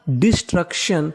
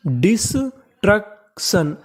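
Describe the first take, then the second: First: Said in the usual way. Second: destruction very slowly, split as डिस - truck - शन; syllable by syllable. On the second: Shown as a demonstration. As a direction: break destruction into parts with clear gaps. (Destruction को तोड़कर बहुत धीरे) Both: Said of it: "तो meaning बनी".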